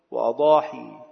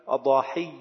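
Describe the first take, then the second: First: وأضاحي with a single ya, falling, wa-adahi; light final ya. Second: أضاحي with shadda on the ya, adahiyy; doubled final ya. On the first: Teacher repeating the plural, وأضاحي with light ya, "wa-adahi". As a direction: end وأضاحي on a plain long "ee". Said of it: "والتخفيف معا". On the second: Teacher repeating the plural, أضاحي with shadda, "adahiyy". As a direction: say أضاحي as "a-da-HIYY", holding the doubled y. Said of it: "بالتشديد". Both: Shown as a demonstration.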